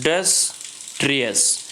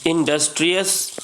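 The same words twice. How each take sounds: First: इंडस्ट्रियस slowly split as इं, डस, ट्रियस; syllable by syllable. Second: Said in the usual way. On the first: Shown as a demonstration. Teacher showing it has three syllables, इंडस्ट्रियस said piece by piece. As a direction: pause between each of the three syllables of इंडस्ट्रियस. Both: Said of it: "इसमें भी तीन syllable है".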